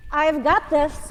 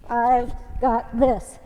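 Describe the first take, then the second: First: Mantra. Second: "I've got this" stretched slow, each word on a beat; slow rhythmic mantra. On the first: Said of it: "is what we're gonna think". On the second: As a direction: chant "I've got this" slowly in time with the reps. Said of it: "Gives you a little rhythm". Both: Shown as a demonstration.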